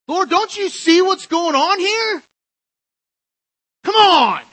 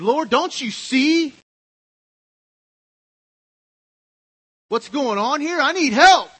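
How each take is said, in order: First: Much higher, louder, slower whining complaint; exasperated Martha. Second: High, loud, slow exasperated plea; frustrated Martha. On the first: Preacher repeating Martha's complaint even more exasperated. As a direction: wail it out, fed up and put upon. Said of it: "when we're in Martha mode". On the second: Preacher voicing Martha complaining to the Lord. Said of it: "She got really angry". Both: Acted.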